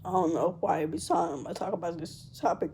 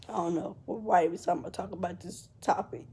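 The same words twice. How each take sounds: First: Said in the usual way. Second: Whispering with a breaking voice; words catch in the throat, barely voiced; real tears pulling the voice down to a whisper; choked whisper. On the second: Real, not acted. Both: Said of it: "I start to get emotional".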